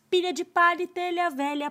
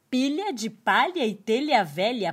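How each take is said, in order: First: It is spoken at a faster pace. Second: It is spoken at a slower pace.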